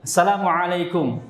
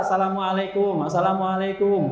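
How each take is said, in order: First: "Assalamualaikum" with a throaty ain starting "alaikum"; correct ain greeting. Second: "Assalamualaikum" as "salamualekum", plain vowel for the ain, long "kum"; ordinary greeting, no ain. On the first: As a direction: articulate the ain clearly in "Assalamualaikum". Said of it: "pun kena ainnya". ("Assalamualaikum" dengan ain yang fasih) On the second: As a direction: glide through "Assalamualaikum" without any throat sound, higher pitched. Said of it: "kalau salamnya biasa". ("Assalamualaikum" biasa tanpa ain, kum panjang) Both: Shown as a demonstration.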